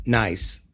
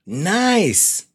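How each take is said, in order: First: Said in the usual way. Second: Nice swooping high with expression; Nice with a big rising-falling lift; expressive nice. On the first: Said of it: "you say". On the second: Shown as a demonstration. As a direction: make Nice clearly pleased.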